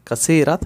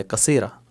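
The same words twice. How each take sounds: First: कसीरत with the final 't' pronounced; written t sounded. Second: कसीरा ending open on 'aa', no 't'; final t silent. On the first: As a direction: close कसीरत on an audible 't'. (कसीरत का आख़िरी 'त' बोलते हुए) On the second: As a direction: leave off the 't', end कसीरा on the vowel. (कसीरा, आख़िर का 'त' पढ़े बिना) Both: Shown as a demonstration. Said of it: "ता नहीं पढ़ा जाए".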